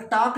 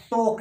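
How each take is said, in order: First: टाक with a long open aa; wrong vowel. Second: टोक with a round o vowel; correct vowel. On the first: Teacher showing students the mistake, open aa in टाक. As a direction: say टाक with aa in place of o. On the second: Teacher correcting students' vowel, round o in टोक. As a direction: say टोक with an o, not aa. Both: Shown as a demonstration. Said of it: "टाक नहीं है ये".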